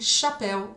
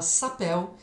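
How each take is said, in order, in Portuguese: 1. A palavra começa com um som de 'sh'. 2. A palavra começa com um som de 's'. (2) "eu falava sapéu"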